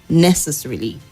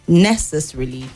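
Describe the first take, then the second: Both takes have the same delivery.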